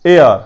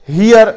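First: "ایئر" louder, with no h; correct pronunciation. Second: "ہیئر" with an audible h; wrong pronunciation. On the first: Teacher repeating the right reading of heir, correct pronunciation. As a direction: punch "ایئر" with a falling tone, h silent. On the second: Teacher repeating the mistake to avoid, wrong pronunciation. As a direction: start "ہیئر" on a breathed h, hee-yer. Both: Shown as a demonstration. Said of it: "اسے ہیئر یا کچھ اور نہیں پڑھنا".

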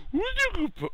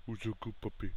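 First: Put-on loud, sky-high falsetto baby talk; high puppy praise. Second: Soft, half-whispered praise. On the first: Player praising the puppy, loud high falsetto. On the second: Acted. Player praising the puppy, hushed murmur.

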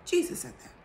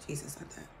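First: Jesus punched high, whispered; emphatic Jesus. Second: Said in the usual way. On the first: Shown as a demonstration. Insisting to viewers it was Jesus who said it, emphatic whisper. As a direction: hit Jesus hard in a pointed whisper.

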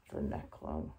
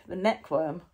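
First: Neckworm breathed as an unvoiced whisper. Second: Said in the usual way. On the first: Shown as a demonstration. Repeating the word to the puppet in a whisper.

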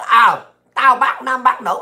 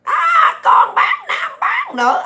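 First: Said in the usual way. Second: Very high, drawn-out mimicking squeal; mock the hecklers in a slow falsetto shriek; hecklers' mock yelling. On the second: Ranter mimics critics yelling insults, mocking high-pitched yell. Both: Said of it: "tụi bay la làng hoài".

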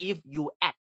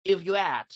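First: "if you add" in separate words; unlinked. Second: "if you add" as one connected phrase; quick native linking. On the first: Teacher shows what not to do, separated "if you add". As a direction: break "if you add" into three. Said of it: "ไม่ใช่ if you add นะ". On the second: Teacher shows the right way, linked "if you add". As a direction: slide through "if you add" without gaps. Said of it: "อย่างเงี้ยลูก". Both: Shown as a demonstration.

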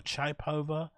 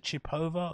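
First: Chipova with "chai" as first syllable, "chai-POH-va"; second pronunciation option. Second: Chipova with "chee" as first syllable, "chee-POH-va"; first pronunciation option. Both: Shown as a demonstration. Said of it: "I forgot how you pronounce her name".

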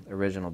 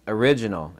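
First: Said in the usual way. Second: Original, hit hard and louder with a falling close; stress on original. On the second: Shown as a demonstration. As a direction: punch the word original. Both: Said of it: "and I emphasize the word original".

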